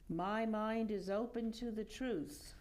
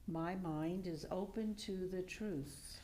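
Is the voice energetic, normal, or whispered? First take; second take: energetic; normal. First: It is said loudly with much energy. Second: It is said in an ordinary speaking voice. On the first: "please repeat after me with much energy" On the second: "in a normal speaking voice"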